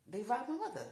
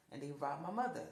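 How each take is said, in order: First: Louder and higher, pressing the point; emphatic repeat. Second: Said in the usual way. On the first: Real, not acted. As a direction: hit it again with force. Repeats, louder, mother robbed.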